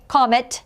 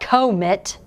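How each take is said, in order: First: The first vowel is a short O. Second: The first vowel is a long O. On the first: The speaker calls it right. "it's pronounced with a short O at the beginning" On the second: The speaker calls it wrong. "that would make the O sound long. It's not comet"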